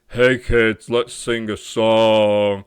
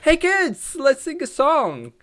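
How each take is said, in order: First: It is said in a deeper voice. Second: It is said in a higher, energetic voice.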